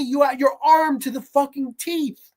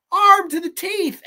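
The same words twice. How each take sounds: First: Said in the usual way. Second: Louder repeat. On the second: Real, not acted. Ranting repeat.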